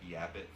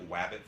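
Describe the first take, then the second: First: The word begins with a Y sound. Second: The word begins with a W sound. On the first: "a Y for R" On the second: "A W for an R"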